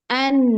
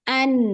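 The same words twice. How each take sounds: Both takes have the same delivery.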